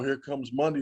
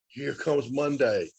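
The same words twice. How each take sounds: First: It is said with a dreading, gloomy tone. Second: It is said with an eager, upbeat tone. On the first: The week ahead is a burden to get through. The speaker calls it wrong. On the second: The week ahead is a chance to achieve things. The speaker calls it right.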